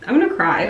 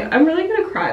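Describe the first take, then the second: First: Said in the usual way. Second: "I'm really gonna cry" lifted higher and excited. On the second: Real, not acted. Fan about the Grammys, voice rising, excited. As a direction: let the pitch jump up on really gonna cry.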